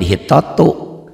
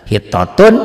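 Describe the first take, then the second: First: The word ends without an n sound. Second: The word ends with an n sound. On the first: The tanwin is reduced before a doubled letter. "tanwin ini baca satu" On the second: This is the original form.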